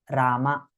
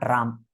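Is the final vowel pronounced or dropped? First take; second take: pronounced; dropped. First: The name ends with a pronounced final vowel. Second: The name ends without its final vowel. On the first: This is the original form of the name. "The Bhagwan's actual name is Rama" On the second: This is a corrupted, colloquial form of the name. "not Ram"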